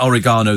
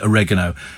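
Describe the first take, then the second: First: It is said with a British pronunciation. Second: It is said with an American pronunciation. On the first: "We call it oregano" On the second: "They call it oregano"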